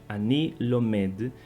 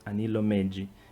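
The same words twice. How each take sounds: First: The phrase ends on a plain D sound. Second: The final D is followed by an added vowel. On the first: The speaker calls it right. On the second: The speaker calls it wrong.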